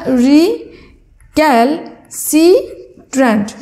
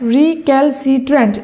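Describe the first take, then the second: First: রিক্যালসিট্রেন্ট said slowly, syllable by syllable; রিক্যালসিট্রেন্ট drawn out piece by piece; broken into syllables. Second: Said in the usual way. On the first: Shown as a demonstration. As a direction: split রিক্যালসিট্রেন্ট into its syllables for spelling. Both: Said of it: "এভাবে আমরা যদি একটু ভেঙে ভেঙে বলি".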